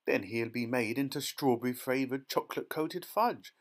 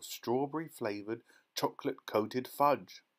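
First: Mild read-aloud scream. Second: Said in the usual way. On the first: A narrator's reading. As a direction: exclaim it in horror, only slightly raised. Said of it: "screamed Missus Gloop".

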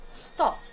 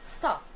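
First: "stop" with the vowel pulled to the back of the throat; back, rounded British "stop". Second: "stop" with the vowel made at the front of the mouth; American stop. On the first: Teacher demonstrating the British back vowel in "stop". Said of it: "Vai ser pronunciado da seguinte maneira". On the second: Teacher contrasting the American "stop" for students. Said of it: "Prestem atenção quando eu falar". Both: Shown as a demonstration.

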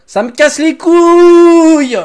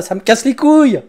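First: Long, slow, high scream of frustration; drawn-out furious yell. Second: Said in the usual way. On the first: Real, not acted. Gamer screaming his frustration at the game. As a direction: stretch every word into a howl.

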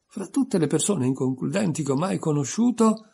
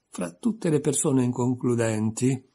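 First: Aloud with relish. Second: Said in the usual way. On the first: A narrator's reading. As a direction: relish saying "inconcludenti" aloud. (ripetuto a voce alta, gustando "inconcludenti") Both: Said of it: "lo ripeté a voce alta".

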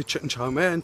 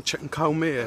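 First: Said in the usual way. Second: Chow said as cow, a hard k; retold mispronounced cow mein; cow mein slip. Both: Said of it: "instead of obviously chicken chow mein".

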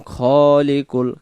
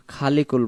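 First: খলিকুল with খ held one alif length; teacher modelling the right খলিকুল; correct pronunciation. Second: খালিকুল with an over-long open a after খ; teacher showing the mistaken খালিকুল; wrong pronunciation. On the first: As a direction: draw the খ vowel in খলিকুল one beat. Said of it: "খ, এক আলিফ টান". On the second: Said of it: "খালিকুল বলবো না". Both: Shown as a demonstration.

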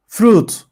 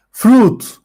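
First: Said in the usual way. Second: Fruit said high and clear as the model /frut/; model pronunciation. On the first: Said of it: "teacher repeats word". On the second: Shown as a demonstration. Teacher models Fruit for pupils, high and clear. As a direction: set the model Fruit for the class. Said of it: "teacher models word".

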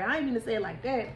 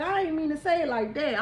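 First: Said in the usual way. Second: Higher and louder, still giggly; laughing apology. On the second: Real, not acted. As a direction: take it back through a laugh. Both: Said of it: "I'm sorry".

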